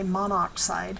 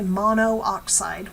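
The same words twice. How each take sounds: First: One vowel is dropped: monoxide. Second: Both vowels are kept: mono-oxide. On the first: The speaker calls it right. "we drop a vowel here" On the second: The speaker calls it wrong. "We don't say monoxide"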